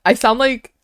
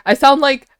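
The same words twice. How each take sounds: The two takes are said the same way.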